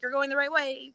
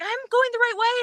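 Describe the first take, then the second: First: Said in the usual way. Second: High, rising excited cry; excited call. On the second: Retold or imitated. Friend calling back to runner, high excited call.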